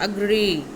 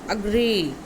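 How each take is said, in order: Both takes have the same delivery.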